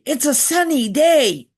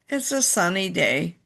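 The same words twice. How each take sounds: First: It is said in an excited, happy tone. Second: It is said in a flat, indifferent tone. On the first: The speaker is glad about the weather. "we'd be excited" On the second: The speaker does not care about the weather. "like it doesn't matter"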